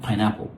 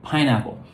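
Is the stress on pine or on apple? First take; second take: apple; pine. First: The stress is on the second part, apple. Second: The stress is on the first part, pine. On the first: The speaker calls it wrong. "Not pineapple" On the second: The speaker calls it right. "we stress the first word, not the second"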